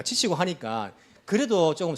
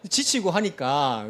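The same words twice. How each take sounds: First: Said in the usual way. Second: Slow, chuckling through the words; laughing. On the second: Real, not acted. Pastor chuckling to congregation about being worn out. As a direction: let a laugh break in as you say it. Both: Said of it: "왜 웃습니까?".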